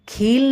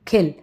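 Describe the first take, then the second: First: The vowel is said long. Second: The vowel is said short. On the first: The speaker calls it wrong. "खील नहीं कहेंगे" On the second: The speaker calls it right. "कम लंबा"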